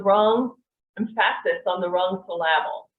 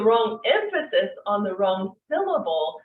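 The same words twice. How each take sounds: First: Movie line with stress on the wrong syllables of "emphasis" and "syllable"; misplaced emphasis. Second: Said in the usual way. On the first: Retold or imitated. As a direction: say "emphasis" as em-PHA-sis and "syllable" as syl-LA-ble. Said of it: "the person in the movie said". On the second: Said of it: "just because the emphasis is off".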